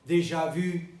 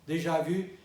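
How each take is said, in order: The two takes are said the same way.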